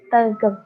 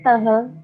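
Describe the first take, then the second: First: The middle consonant sounds like g. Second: The middle consonant sounds like h. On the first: The speaker calls it right. "pelafalan yang benar ... tetap tegel, T E G E L" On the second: The speaker calls it wrong. "Pelafalan yang salah"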